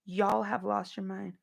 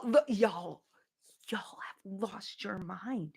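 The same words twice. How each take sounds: First: Said in the usual way. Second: Soft unvoiced whisper, slowing down; hushed disbelieving whisper. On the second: Real, not acted. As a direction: lean in and whisper it. Whispered aside to chat.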